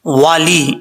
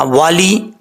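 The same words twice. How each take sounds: First: "والی" ends in a clear long ee, not "والے"; correct vowel. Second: "والی" repeated with a long ee ending; correct vowel again. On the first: Teacher showing students the right ending. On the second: Teacher repeating the word for students to copy. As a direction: stress the ee in "والی". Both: Shown as a demonstration. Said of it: "اس کو والے نہیں پڑھنا".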